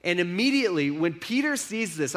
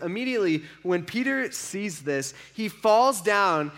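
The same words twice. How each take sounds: First: Said in the usual way. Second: Slowed down, "Peter" leaned on; slow it down for weight on "Peter"; slow, weighty retelling. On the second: Shown as a demonstration. Preacher repeats the moment to the congregation, slowly.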